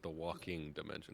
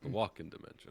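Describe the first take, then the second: First: The word before dimension ends in an ng sound. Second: The word before dimension ends in a plain n. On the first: The speaker calls it wrong. "You're not pronouncing it right. It's not the walking dimension" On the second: The speaker calls it right. "It's the walk-in dimension"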